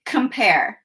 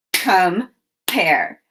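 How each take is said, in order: First: Said in the usual way. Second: "Compare" split in two, com, pause, pare; chopped syllables. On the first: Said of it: "chop the two syllables". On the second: Shown as a demonstration. Teacher showing children the syllables, "Compare" chopped in two. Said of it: "chop the syllables in compare".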